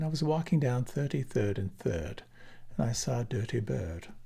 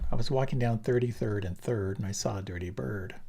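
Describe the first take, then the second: First: It is said in a British received pronunciation accent. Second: It is said in a standard American accent. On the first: "with received pronunciation" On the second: "Standard American"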